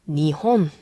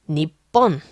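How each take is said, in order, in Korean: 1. 가운데 자음은 부드러운 h 소리예요. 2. 가운데 자음은 길게 멈춘 겹친 p 소리예요.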